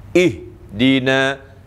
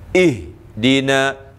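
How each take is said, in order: Both takes have the same delivery.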